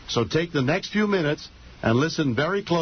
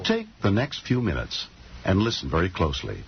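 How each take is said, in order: First: It is said with more excitement and energy. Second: It is said in a laid-back, low-energy way.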